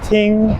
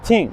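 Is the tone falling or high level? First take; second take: high level; falling. First: The tone stays high and level. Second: The tone falls sharply from high to low. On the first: This is the Standard Mandarin form. "The first tone in Mandarin is ting" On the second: This is the dialect form. "these change into like the equivalent of fourth tone in Mandarin"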